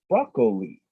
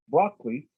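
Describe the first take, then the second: First: The word is said with three syllables. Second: The word is said with two syllables. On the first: "which is three syllables" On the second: "like I do, which is two syllables"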